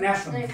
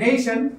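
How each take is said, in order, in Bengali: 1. প্রথম স্বরধ্বনিটি হলো সাধারণ, ছোট e। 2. প্রথম স্বরধ্বনিটি হলো 'day'-এর ay। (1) "আমরা বলতাম নেশন" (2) "বলেন নেশন"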